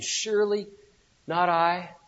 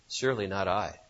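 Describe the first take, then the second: First: It sounds sad and distressed. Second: It sounds cool and calculated.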